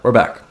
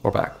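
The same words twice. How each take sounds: First: Said in the usual way. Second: Barely voiced, breathy and faint; voice still failing. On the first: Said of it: "my voice recovered right on time". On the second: Real, not acted. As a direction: croak it out as the voice fails. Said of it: "I just lost my voice completely".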